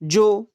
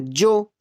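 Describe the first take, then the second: First: The word begins with a 'j' sound. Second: The word begins with a 'j' sound.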